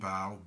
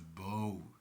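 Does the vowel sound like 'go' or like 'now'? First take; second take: now; go. First: The vowel sounds like the one in 'now'. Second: The vowel sounds like the one in 'go'. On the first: The speaker calls it right. "but it's Golden Bough" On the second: The speaker calls it wrong. "some people have the tendency to pronounce it as bow"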